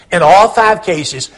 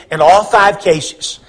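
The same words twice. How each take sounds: The two takes are said the same way.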